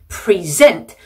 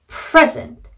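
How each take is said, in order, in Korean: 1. 강세는 두 번째 음절에 있어요. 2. 강세는 첫 번째 음절에 있어요. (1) "동사일 경우에는" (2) "명사나 형용사는"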